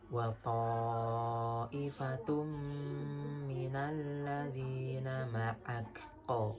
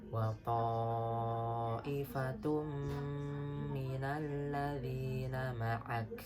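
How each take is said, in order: First: The final k ends with an echoing bounce. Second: The final k ends without any bounce. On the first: The speaker calls it wrong. "salah karena huruf kaf tidak termasuk huruf qalqalah atau huruf pantul" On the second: The speaker calls it right. "Jadi yang benar"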